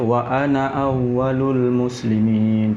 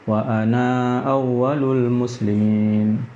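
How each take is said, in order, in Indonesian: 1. Vokal terakhir pada 'ana' pendek. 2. Vokal terakhir pada 'ana' dipanjangkan. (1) "kita akan baca" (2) "tak baca"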